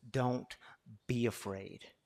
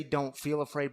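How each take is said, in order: First: Slow "Don't... be afraid", weight on "be"; stress on BE. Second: "feel" lightly weighted; stress on FEEL. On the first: Preacher giving God's command, pausing on "be". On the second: Preacher setting feeling afraid against being afraid, "feel" weighted. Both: Shown as a demonstration. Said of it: "there is a difference in feeling afraid and being afraid".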